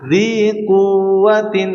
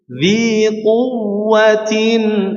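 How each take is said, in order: First: The 'w' sound is weak and light. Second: The 'w' sound is pressed and doubled. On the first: The speaker calls it wrong. "nanti wawunya lemah ya" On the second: The speaker calls it right. "harusnya ditekan agar wawunya tasydidnya jelas ya"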